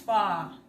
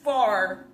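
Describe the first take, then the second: First: It is said without the final R sound. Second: It is said with a hard final R sound. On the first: This is how British speakers say it. "they kind of go" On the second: This is how American speakers say it. "instead of far"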